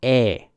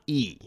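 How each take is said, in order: First: E as an open "eh"; Japanese E vowel. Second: E as the letter name, "ee"; wrong English E. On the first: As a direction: hold E as a pure "eh", not "ee". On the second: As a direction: say E as a long "ee". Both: Shown as a demonstration.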